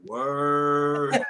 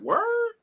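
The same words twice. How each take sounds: First: The word is dragged out slowly. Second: The word is said quickly.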